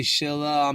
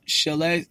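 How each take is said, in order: First: Shila with an "ah" ending; Shila, final vowel as "ah"; variant vowel. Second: Shile with an "ay" ending; Shile, final vowel as "ay"; usual vowel. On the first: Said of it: "they say Shila Hamnida". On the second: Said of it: "some people don't say". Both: Shown as a demonstration.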